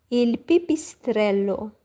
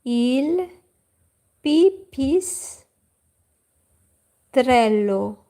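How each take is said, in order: First: Il pipistrello said at normal pace with stress on il; Italian word. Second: Il pipistrello drawn out very slowly in Italian; Italian word. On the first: Teacher repeating the Italian word at normal pace. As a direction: say Il pipistrello once more at normal speed. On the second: Teacher modelling the Italian word for bat slowly. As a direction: stretch out pipistrello, syllable by syllable, very slow. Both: Shown as a demonstration. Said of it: "we say".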